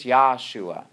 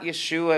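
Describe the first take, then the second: First: Yahshua with an open "yah" first syllable; Yahshua pronunciation. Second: Yeshua with a short, unstressed first vowel; Yeshua pronunciation. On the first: Retold or imitated. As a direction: say Yahshua with a clear AH vowel first. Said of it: "they say it's Yahshua". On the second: Shown as a demonstration. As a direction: say Yeshua as ye-SHOO-a. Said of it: "start to emphasize pronunciations".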